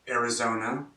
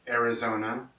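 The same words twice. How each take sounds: The two takes are said the same way.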